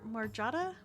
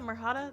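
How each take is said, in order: First: The middle consonant is a J sound. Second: The middle consonant is an H sound. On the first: The speaker calls it wrong. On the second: The speaker calls it right.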